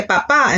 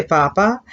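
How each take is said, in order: First: Papá with the second syllable stressed; stress on final A. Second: Papa with the first syllable stressed. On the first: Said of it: "important that you accent the A". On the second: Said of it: "If you don't say papá and say papa". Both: Shown as a demonstration.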